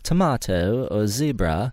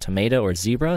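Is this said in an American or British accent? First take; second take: British; American. First: It is said in a British accent. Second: It is said in an American accent.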